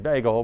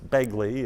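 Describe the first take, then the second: First: The name ends in an 'l' sound. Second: The name ends in an 'ee' sound. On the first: This is how most outsiders say it. The speaker calls it wrong. "a lot of people would say bagel" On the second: This is how locals say it. The speaker calls it right. "but it's Begley if you're from Ferdinand"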